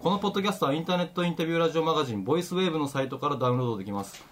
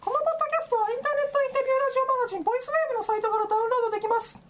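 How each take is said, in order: First: It is said in a normal speaking voice. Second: It is said in a high falsetto voice.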